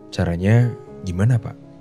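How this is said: It is said softly with a curious tone.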